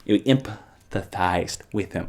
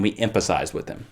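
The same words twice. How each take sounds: First: "empathized" broken up, quiet, with a long pause; careful self-correction. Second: "empathized" slurred toward "emphasized"; tongue slip. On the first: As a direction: sound out "em-pa-thized" haltingly and low. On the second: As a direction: stumble "empathized" into an f sound. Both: Real, not acted. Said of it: "I can't talk".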